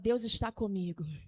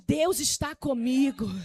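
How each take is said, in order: First: It is said at normal volume. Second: It is said louder and stronger.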